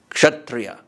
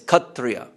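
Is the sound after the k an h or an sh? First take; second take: sh; h. First: The k is followed by an sh sound. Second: The k is followed by an h sound. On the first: This is the Sanskrit pronunciation. "the Sanskrit word Kshatriya" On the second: This is the Bengali pronunciation. "when you hear that pronounced in Bangla, it's Kshatriya"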